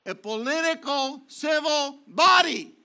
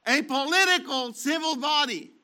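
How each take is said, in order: First: A political civil BODY, with body loud and falling; stress on body. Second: A POLITICAL civil body, with political hit first; stress on political. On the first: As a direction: land hard on body at the end. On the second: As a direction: punch political, let the rest fall away. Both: Shown as a demonstration. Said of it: "repeated with shifted stress".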